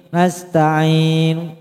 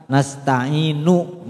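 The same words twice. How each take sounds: First: "Nasta'in" chanted, stopping on the n; silent final u. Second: "nasta'inu" with an audible nu ending; sounded final u. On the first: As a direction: sing "Nasta'in" with the final nu unvoiced. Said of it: "nunya nggak bunyi". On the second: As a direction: say "nasta'inu" unchanted with the u voiced. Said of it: "Seakan-akan kita membaca". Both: Shown as a demonstration.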